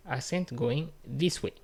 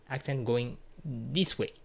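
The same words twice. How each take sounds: The two takes are said the same way.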